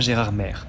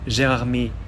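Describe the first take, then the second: First: The last syllable ends with an R sound. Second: The last syllable ends without an R sound. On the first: The speaker calls it wrong. "non pas Gérard Maire" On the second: The speaker calls it right. "pourquoi prononce-t-on Gérard May"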